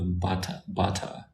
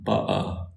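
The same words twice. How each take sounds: First: "bata" with a clear t, lightly imitating a London accent; London pronunciation. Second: "ba'a" with the t swallowed into a glottal stop, British regional accent. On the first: Showing viewers how London says butter, a light London accent. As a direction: say "bata" the London way, t fully sounded. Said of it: "they say bata". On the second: Contrasting London with outside London, glottal British accent. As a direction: drop the t in "ba'a", catch it in the throat. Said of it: "Once you're outside of London, they say". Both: Shown as a demonstration.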